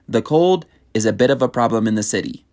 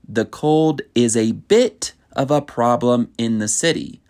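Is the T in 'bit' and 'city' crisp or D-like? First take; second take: D-like; crisp. First: The T sounds are soft, like a D. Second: The T sounds are crisp and clearly released. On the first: The speaker calls it right. "it is pronounced more as a D" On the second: The speaker calls it wrong. "I don't say"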